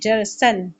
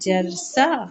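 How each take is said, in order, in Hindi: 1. शब्द 'न' की आवाज़ से खत्म होता है। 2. शब्द लंबे 'आ' स्वर से खत्म होता है। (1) "while reading" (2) "जब हम वब रुकेंगे जरसन पे तो ये बन जाएगा"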